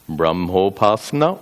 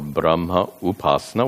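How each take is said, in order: First: The two words merge into one word. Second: The two words are said separately. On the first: "if the words are combined" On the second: "when the words are separated"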